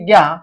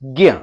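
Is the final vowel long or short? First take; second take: long; short. First: It ends with a long aa vowel. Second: It ends with a short a vowel. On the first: The speaker calls it wrong. "आपने तो यहां पर आ की मात्रा लगा दिया" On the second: The speaker calls it right. "अंत में अ स्वर निकलना चाहिए"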